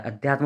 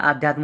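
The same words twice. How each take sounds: First: "अध्यात्म" starting on short a; short-vowel अध्यात्म. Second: "आध्यात्म" starting on long aa; long-vowel आध्यात्म. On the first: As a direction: open अध्यात्म with a brief a. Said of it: "अध्यात्म होता है". ("अध्यात्म" का पहला अ छोटा) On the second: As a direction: open आध्यात्म with a stretched aa. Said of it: "आध्यात्म होता है". ("आध्यात्म" का पहला आ लंबा) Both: Shown as a demonstration.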